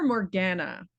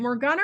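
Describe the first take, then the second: First: Morgana with the "a" of "cat"; short-A pronunciation. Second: Morgana with "ah" in the middle; broad-A pronunciation. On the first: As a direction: say Morgana as mor-GAN-na, rhyming with banana. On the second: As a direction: say Morgana as mor-GAH-na. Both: Shown as a demonstration. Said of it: "is it Morgana or Morgana".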